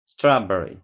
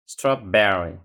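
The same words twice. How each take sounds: First: "Strawberry" punched on the opening syllable; strong "Straw", lighter falling "berry" in "Strawberry"; stress on first syllable. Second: "Strawberry" with "ber" hit louder; stress on second syllable. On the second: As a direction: move the punch in "Strawberry" onto "ber". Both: Shown as a demonstration. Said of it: "colocar a entonação na outra sílaba".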